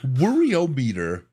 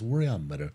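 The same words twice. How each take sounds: First: The syllables are choppy and separated. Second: The syllables roll together smoothly. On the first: The speaker calls it wrong. "is too herky-jerky. It's too staccato" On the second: The speaker calls it right. "It rolls"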